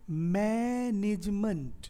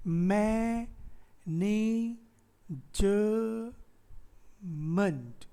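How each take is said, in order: First: मैनेजमेंट as long mai, then nij-munt joined; slow मैनेजमेंट in three syllables; three-syllable breakdown. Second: मैनेजमेंट broken into mai, nee, juh, munt with long pauses; मैनेजमेंट said very slowly in four separate beats; wrong four-syllable split. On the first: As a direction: run ज straight into म in मैनेजमेंट, stretching the first syllable. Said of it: "ज के बाद म तुरंत आ जा रहा है". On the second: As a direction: give ज in मैनेजमेंट its own drawn-out syllable. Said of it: "तो यहाँ पे ज नहीं है". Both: Shown as a demonstration.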